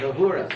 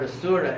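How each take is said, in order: First: The word begins with an H sound. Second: The word begins with an S sound. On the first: This is how the Persians said it. "pronounced an initial S like an H" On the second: This is the original form east of the river. "they pronounce this word asura as Ahura"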